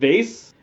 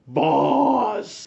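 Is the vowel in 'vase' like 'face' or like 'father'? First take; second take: face; father. First: The vowel sounds like the one in 'face'. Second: The vowel sounds like the one in 'father'. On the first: "April calls it vase" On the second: "pronounce the word Vaz all like fancy"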